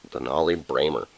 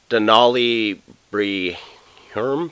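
First: Bramer in two syllables, BRAY-mer; corrected pronunciation. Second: Slow, questioning Brehirm, read as bree-HERM; unsure mispronunciation. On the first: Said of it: "That's how you say Bramer?". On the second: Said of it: "How do you say that last name?". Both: Real, not acted.

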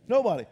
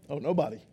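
First: Said in the usual way. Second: Deflated. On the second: Shown as a demonstration. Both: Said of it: "Who's signing up for that?".

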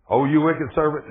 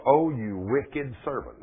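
First: Louder, higher rebuke; the lord scolds the unforgiving servant, louder; angry lord. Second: Slow, measured lord's reproach; drawn out, judging; the lord rebukes his servant, slowly. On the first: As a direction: let the anger rise. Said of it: "And his Lord was angry". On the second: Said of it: "said unto him". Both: Retold or imitated.

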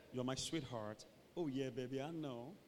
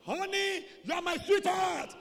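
First: Low, soft cooing; whispering lovers. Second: High, blaring endearment; problem shout. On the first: Two lovers close together, murmuring to each other. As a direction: murmur it intimately. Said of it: "two people are just whispering". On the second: Lover with a problem, shouting to honey. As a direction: holler it across a distance. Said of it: "There's a problem". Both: Acted.

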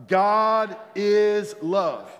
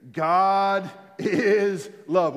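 First: Slow, high and loud God is love; louder proclamation. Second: Slow drawn-out declaration. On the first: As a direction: proclaim it with full force. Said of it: "One more time". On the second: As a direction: stretch out God is love slowly and loud. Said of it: "Let's say it again". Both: Shown as a demonstration.

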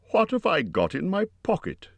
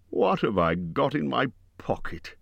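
First: Much higher, insistent question; said louder. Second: Higher-pitched musing question; saying it aloud. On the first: Bilbo sticking to his question for Gollum, higher and more insistent. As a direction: put the question more forcefully. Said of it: "he said louder". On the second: Bilbo talking to himself about his pocket, musing aloud. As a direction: wonder aloud to yourself. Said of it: "he said aloud". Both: A narrator's reading.

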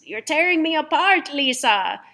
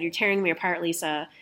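First: High, loud melodramatic outcry; hammed-up anguished movie line; Tommy Wiseau. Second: Said in the usual way. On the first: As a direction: cry it out like an overwrought movie star. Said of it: "where Tommy Wiseau goes". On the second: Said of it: "and it said".

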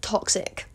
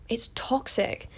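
First: Toxic breathed out in a whisper. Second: It's toxic said slowly in voice. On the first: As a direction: whisper the word toxic with relish. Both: Shown as a demonstration. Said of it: "my favourite word".

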